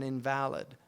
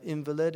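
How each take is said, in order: First: InVALid, stressed on the middle syllable; stress on second syllable. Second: INvalid, stressed on the first syllable. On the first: Teacher contrasting two words by emphasis, stress on second syllable of invalid. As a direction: say invalid with the weight on VAL. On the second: Teacher showing where emphasis goes in a word, stress on first syllable of invalid. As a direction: say invalid with the weight on IN. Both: Shown as a demonstration. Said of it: "where you put your emphasis".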